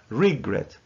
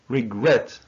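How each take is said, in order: First: The stress is on the first syllable. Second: The stress is on the second syllable. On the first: The speaker calls it wrong. "not regret" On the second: The speaker calls it right. "the second syllable is stressed. So we say regret"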